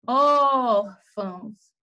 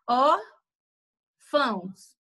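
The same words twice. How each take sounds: First: ÓR in órfãos loud and long drawn out, fãos weaker; sílaba tônica forte. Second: ÓR and FÃOS said apart, with a clear pause; separação silábica. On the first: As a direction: stretch the first syllable of órfãos like a vendor's call. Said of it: "ela vai ser mais forte do que o fão". (órfãos com o ÓR forte e bem alongado) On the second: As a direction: split órfãos into two slow syllables: ór... fãos. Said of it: "se a gente pegar essa palavra e for separar ela". (órfãos dito em duas sílabas separadas por pausa) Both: Shown as a demonstration.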